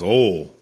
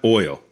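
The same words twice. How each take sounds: First: The word has a local Southern pronunciation. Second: The word has a standard, non-local pronunciation. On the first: Someone who knows the area would say it this way. The speaker calls it right. "if you're into it" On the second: An outsider would say it this way. The speaker calls it wrong. "she's saying it wrong"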